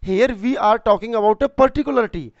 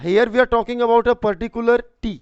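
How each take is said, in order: First: "particular" leaned on in a slow repeat. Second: Slow, deliberate English explanation; slow dictation. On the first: Teacher repeating the point, stressing "particular" for students. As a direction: slowly stress "particular" again. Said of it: "teacher repeats explanation". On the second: Teacher slowly explaining the particular tea to students. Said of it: "teacher dictating explanation". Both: Shown as a demonstration.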